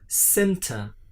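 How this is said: It is said with a British accent. "British people say, uh, pronounce the word center"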